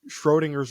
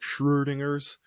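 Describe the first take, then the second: First: The first vowel sounds like a plain 'oh'. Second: The first vowel sounds like a rounded 'uh'. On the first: The speaker calls it wrong. "I think I pronounced that wrong" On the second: The speaker calls it right. "that umlauted O, is kind of like a uh sound"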